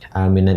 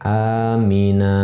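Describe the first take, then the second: First: The word ends with an n sound. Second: The word ends on a long vowel without n. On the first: This is the written form when reading on. "kata aminan ini" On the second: The reader stops at this word. "ketika dia waqaf atau dalam keadaan berhenti, bacaannya sama seperti ini"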